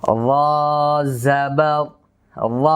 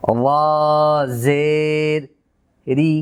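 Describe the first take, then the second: First: "র জবর, র" spelled out slowly with a full, heavy "ra". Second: "র জের রি" spelled out slowly, ending on a thin "ri"; thin, light r. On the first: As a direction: raise the tongue root for "র" in "র জবর, র". ("র জবর, র"-এ র পুর করে) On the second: ("র জের রি"-তে রি বারিক করে) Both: Shown as a demonstration. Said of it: "আমি যদি এটিকে উচ্চারণ করে দেখাই".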